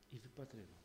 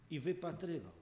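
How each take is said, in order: First: Much softer, lower echo; hushed echo. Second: Said in the usual way. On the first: Acted. Preacher echoing the waiting father, hushed. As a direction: let "wypatrywał" fade almost to a breath. Repeated in near whisper.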